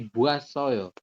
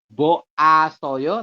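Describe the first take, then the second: First: The o and a merge into one wa syllable. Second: The o and a are said as separate syllables. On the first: The speaker calls it right. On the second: The speaker calls it wrong.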